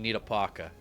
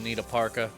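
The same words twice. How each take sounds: First: Parka is said in an imitated older accent. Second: Parka is said in the speaker's ordinary accent. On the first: "Whatever accent it is my grandmother has" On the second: "Feels weird to say the word parka like that"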